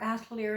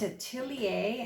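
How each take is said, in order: First: The word ends with an R sound. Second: The word ends without an R sound. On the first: "you save the R" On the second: "you drop the R"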